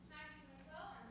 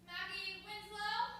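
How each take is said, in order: First: The name is said quietly. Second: The name is said loudly.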